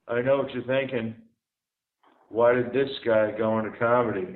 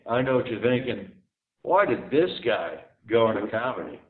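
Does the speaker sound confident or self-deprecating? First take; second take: self-deprecating; confident. First: The line sounds meek and self-deprecating. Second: The line sounds cocky and confident. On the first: The speaker plays a loser who knows he is one. "instead of saying" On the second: The speaker plays a loser who acts like a winner. "play a loser who acts like a winner"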